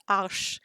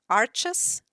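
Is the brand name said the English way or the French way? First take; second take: French; English. First: The name is said the French way. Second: The name is said the English way. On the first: The speaker calls it right. "the right pronunciation I've looked it up is Arsch" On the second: The speaker calls it wrong. "in um, all the English videos ... it always is pronounced Arches"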